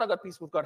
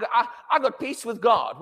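First: Said in the usual way. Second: Mock self-focused boast. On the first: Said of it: "How about reminding yourself". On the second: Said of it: "we made a lot of the things about".

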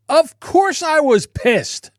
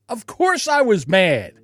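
First: Slow and high, leaning on course; emphatic. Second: Said in the usual way. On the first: Real, not acted. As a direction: stretch out Of course, high and drawn out. Venting anger at YouTube.

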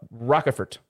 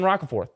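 First: "Rockefort" said as ROCK-fort, with a clipped second syllable and a hard t; retry the name as "Rockefort"; corrected pronunciation. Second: "Roccaforth" said with stress on the first syllable, ROCK-a-forth; first pronunciation. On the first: Host correcting himself on a player's name, second take. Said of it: "wrong emphasis on the wrong syllable". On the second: Podcast host reading a player's name, first take. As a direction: say "Roccaforth" the usual team way, three syllables. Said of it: "putting some different emphasis". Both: Shown as a demonstration.

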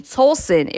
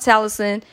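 First: Towson said as "TOLE-son"; corrected pronunciation. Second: Towson said as "TAL-uh-son"; mistaken pronunciation. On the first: Host correcting a listener city, Towson as "TOLE-son". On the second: Host reading listener cities, Towson misread as "TAL-uh-son". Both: Real, not acted. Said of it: "or no, excuse me".

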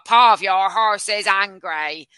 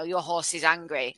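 First: Slow, loud mock text-to-speech robot; imitating robot voice. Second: Said in the usual way. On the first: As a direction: read it out like a horrible robotic narrator, dragging each word. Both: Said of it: "the robot voice will go".

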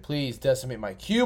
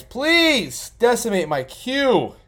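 First: Said in the usual way. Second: Drawn-out, higher, louder fake begging; mock pleading. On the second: Streamer begs the other drafters, slow and hammed-up. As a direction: stretch the plea out like a mock beggar.

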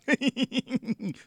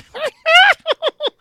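First: A failed hoarse laugh that comes out like a clown; hoarse laugh attempt. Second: Hoarse, much higher, louder cackle with a high edge; Zacarias laugh. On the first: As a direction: try a raspy comic laugh and miss. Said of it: "tentei fazer essa rouquidão na risada". (risada rouca malfeita, parecendo palhaço) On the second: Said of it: "eu fiz assim, ó". (gargalhada rouca e aguda, bem alta) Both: Shown as a demonstration.

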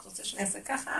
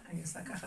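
First: Soft question, rising on ככה; quietly offer, lifting ככה at the end; obliging, hushed asking; acted willing question. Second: Very soft, submissive answer; hushed, obedient reply; acted compliance. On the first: Queen asking what king wants. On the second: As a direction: drop to a murmur and agree. Queen complying with the king.

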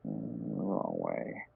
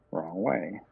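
First: Very low, slow, drawn-out wrong way; deep slow voice. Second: Said in the usual way. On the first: Acted. Fumbling a card, muttered to self.

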